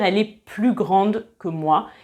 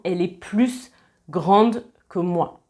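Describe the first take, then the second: First: The final s of plus is silent. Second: The final s of plus is pronounced. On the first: The speaker calls it right. "on va dire" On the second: The speaker calls it wrong. "et non"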